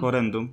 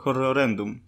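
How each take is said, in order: First: The name is said with three syllables. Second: The name is said with four syllables. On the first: The speaker calls it right. "Nie. Jest horrendum" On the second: The speaker calls it wrong. "A ja zawsze to czytałem horrorendum"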